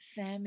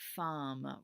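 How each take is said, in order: First: The vowel sounds like the e in 'fem'. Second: The vowel sounds like the a in 'fam'. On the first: The speaker calls it wrong. "Femme is not the correct pronunciation" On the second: The speaker calls it right. "We're going to pretend like there's an A there where that E is"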